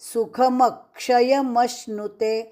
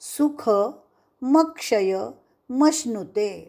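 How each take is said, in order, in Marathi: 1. वाक्य खंड न पाडता एकसलग म्हटले जाते. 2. वाक्य वेगवेगळ्या भागांमध्ये तोडून म्हटले जाते.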